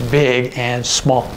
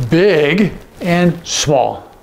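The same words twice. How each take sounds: First: Said in the usual way. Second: BIG and SMALL each stretched out very slowly; contrasting big and small. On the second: Shown as a demonstration. Acts out contrasting signs.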